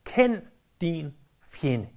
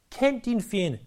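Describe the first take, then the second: First: Each word slow and heavy, "kend din fjende" laid down deliberately; slow, weighty statement. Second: Said in the usual way. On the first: Shown as a demonstration. Pastor stating his first point to the congregation, slow and emphatic. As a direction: drive home "kend" with a slow falling stress. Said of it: "For det første".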